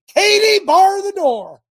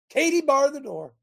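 First: Coach's yell, much higher and louder; football coach yell. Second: Said in the usual way. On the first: Retold or imitated. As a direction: bellow it like a coach on the sideline. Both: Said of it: "as my football coach used to say".

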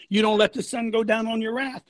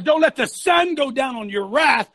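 First: Said in the usual way. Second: "sun" punched high in a raised voice; forceful scripture quote. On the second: Acted. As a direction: quote it like a preacher, hitting "sun". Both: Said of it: "It says".

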